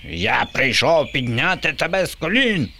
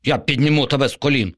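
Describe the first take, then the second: First: High, far zombie screech; shrieking zombie ruler. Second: Fast, high zombie promise; a lightly voiced zombie assuring him; reassuring zombie. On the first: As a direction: screech it like a pompous monster. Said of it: "верещав Боба". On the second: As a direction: rush the big promise like a con. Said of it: "запевнив зомбі". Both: A narrator's reading.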